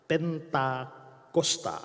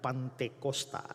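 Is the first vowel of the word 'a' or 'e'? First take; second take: e; a. First: The first vowel is e, the second a. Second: The first vowel is a, the second e. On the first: The speaker calls it right. "Yang benar adalah Pentakosta" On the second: The speaker calls it wrong. "Pantekosta itu terbalik, tidak ada arti"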